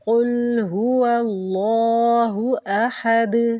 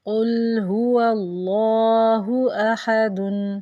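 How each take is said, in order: First: The last word stops on a bare consonant. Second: The last word ends with a full -un sound. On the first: "दाल को साकिन करके पढ़ते हैं" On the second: "लिखा होता है"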